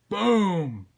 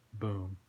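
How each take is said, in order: First: Big, high, drawn-out boom; loud exploding sound effect. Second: Low, soft boom; understated, low sound effect; quiet boom. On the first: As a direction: belt it out like an explosion. Same word repeated as an explosion. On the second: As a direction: drop the word quietly. Same word said small, then big. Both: Shown as a demonstration.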